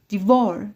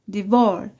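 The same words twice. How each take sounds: No difference in how they are said.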